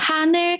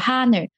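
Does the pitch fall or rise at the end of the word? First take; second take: rises; falls. First: The pitch rises at the end of the word. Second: The pitch starts level and falls slightly. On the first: The speaker calls it wrong. "大家可能会往上飘变哈呢，那就不对了" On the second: The speaker calls it right. "他的语调是哈女"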